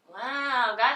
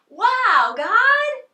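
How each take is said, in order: First: It is said flatly, with little energy. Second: It is said loudly, with lots of energy.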